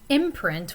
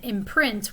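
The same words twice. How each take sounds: First: It carries the noun's stress pattern. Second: It carries the verb's stress pattern. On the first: It is used as a noun. "Imprint would be a noun" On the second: It is used as a verb. "imprint would be a verb"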